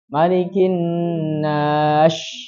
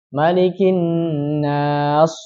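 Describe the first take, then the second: First: The final consonant is an sh sound. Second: The final consonant is a heavy emphatic s. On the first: "atau shin" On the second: "mengganti huruf sin menjadi shad"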